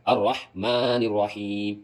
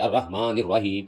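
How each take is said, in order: First: Very slow "الرحمن الرحیم", long vowels, pharyngeal ح; proper throat ح. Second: "الرحمن الرحیم" with a plain h for each ح; ح read as h. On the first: Teacher shows how to read it, proper ح. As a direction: stretch "الرحمن الرحیم" and rasp each ح from the throat. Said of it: "اس طرح پڑھے". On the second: Teacher shows what not to read, ح as h. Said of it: "اس طرح نہ پڑھے". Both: Shown as a demonstration.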